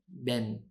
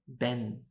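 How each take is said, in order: No difference in how they are said.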